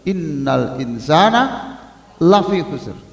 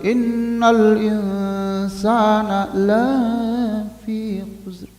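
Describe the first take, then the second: First: The vowel in 'la' is kept short. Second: The vowel in 'la' is drawn out long. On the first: Man is surely at a loss. The speaker calls it right. "Yang benar adalah ... Karena la pendek pasti" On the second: Man will surely not be at a loss. The speaker calls it wrong. "Padahal itu artinya sungguh manusia tidak akan rugi"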